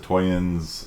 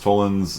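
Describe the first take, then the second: First: The middle consonant sounds like a Y. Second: The middle consonant sounds like an L. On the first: Some other people say it this way. "I've heard some people pronounce it toyens" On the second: This is the form the speaker chooses to use. "My professor pronounced it as modus tollens"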